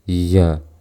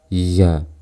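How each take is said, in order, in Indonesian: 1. Nafas terdengar bersama suara. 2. Nafas terdengar bersama suara.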